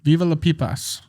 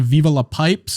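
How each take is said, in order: First: The last word is said as two syllables, 'pipas'. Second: The last word is said as one syllable, 'pipes'. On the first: The speaker calls it right. "It's actually Viva la" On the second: The speaker calls it wrong. "I've been just pronouncing it incorrectly on purpose"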